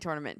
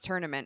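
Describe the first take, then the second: First: The first syllable sounds like 'tour'. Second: The first syllable sounds like 'turn'. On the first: The speaker's own way of saying it. "I say tournament too. Because it's a tour" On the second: Someone else says it this way. "Anthony says tournament"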